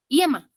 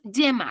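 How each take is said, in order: First: Yema mispronounced as i-e-ma, opening on a vowel i. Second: Yema with the y as a firm consonant, like ll; yema, opening on a double-L sound. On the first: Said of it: "no decimos yema". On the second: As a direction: say yema starting on a solid ll, no vowel i. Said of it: "decimos yema". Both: Shown as a demonstration.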